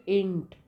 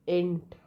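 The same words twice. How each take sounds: First: Int said as a short clipped int, no long ai; phonetic reading. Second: Said in the usual way. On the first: Shown as a demonstration. Teacher giving students the transcription of ain't, spoken as int. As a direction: read out Int as the sound int. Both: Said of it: "It's int".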